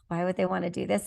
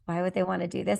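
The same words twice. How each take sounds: First: The question sounds doubtful and dismissive. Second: The question sounds doubtful and dismissive.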